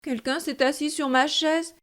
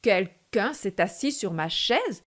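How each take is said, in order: First: It is said in a medium, average voice. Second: It is said in a big, gruff voice.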